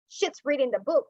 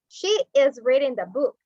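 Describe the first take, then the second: First: She is is shortened to one syllable. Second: She is is said as two full words. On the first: "but we're using a contraction" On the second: "we say she is reading the book"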